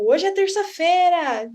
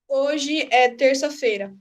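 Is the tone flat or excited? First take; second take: excited; flat. First: It is said excitedly, as an exclamation. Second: It is said flatly, as a plain statement.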